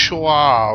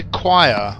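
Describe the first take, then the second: First: "choir" said as spelt, with a ch start; drawn-out, louder "choir" like "chwaar"; alternative guess pronunciation. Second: "choir" said the usual way, like "kwire"; "choir" with a k-w start; first guess pronunciation. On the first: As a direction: say "choir" as an exaggerated "CHWAR". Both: Shown as a demonstration. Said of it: "whatever the hell that says".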